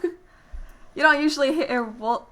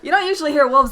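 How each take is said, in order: First: It is tried in a put-on southern accent. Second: It is said in a plain, ordinary voice. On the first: "The southern accent. ... See, I can't even do it" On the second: "Don't do it. Just just go"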